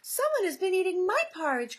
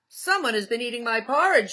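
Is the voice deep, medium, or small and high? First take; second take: small and high; deep. First: It is said in a small, high voice. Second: It is said in a big, deep voice.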